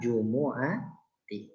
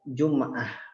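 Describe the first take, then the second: First: The word is said in full, four syllables. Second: The word is shortened to two syllables. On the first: The speaker calls it right. "Padahal jumu'ati" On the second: The speaker calls it wrong. "kesalahan orang-orang ya"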